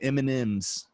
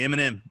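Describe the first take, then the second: First: The name ends with an s sound. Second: The name ends without an s sound. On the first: It is said the way the wife says it. "she'll say M and M's" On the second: It is said like the rapper's name. "I say M and M"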